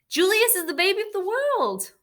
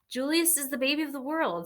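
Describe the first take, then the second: First: It is said louder, with more force. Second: It is said at normal, quieter volume.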